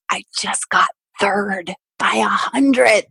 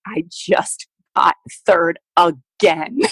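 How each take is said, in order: First: Slow, heavy, deflated reply; numb, dragged-out disbelief; devastated deadpan. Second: Very slow, defeated repeat; flat-out crushed, weary; devastated deadpan. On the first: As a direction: let each word sink, crushed. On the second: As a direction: drag it out, emptied of hope. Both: Retold or imitated. Devastated athlete answering testing staff.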